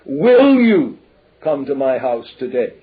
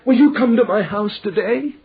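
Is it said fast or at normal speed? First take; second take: normal speed; fast. First: It is said at normal speed. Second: It is said fast and urgently.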